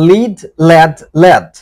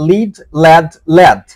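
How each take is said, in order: The two takes are said the same way.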